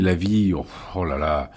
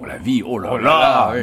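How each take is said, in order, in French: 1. C'est dit sur un ton un peu dégoûté. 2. C'est dit sur un ton admiratif, ravi. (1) "d'une manière un peu dégoûtée"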